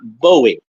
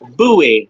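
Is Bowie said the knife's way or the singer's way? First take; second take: singer; knife. First: Bowie is said the way the singer's name is said. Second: Bowie is said the way the knife's name is said. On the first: This is how the rock singer says his name. The speaker calls it wrong. "not Bowie. Bowie is [name], the rock singer" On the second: This is how the knife's namesake said it. The speaker calls it right. "it is indeed pronounced Bowie"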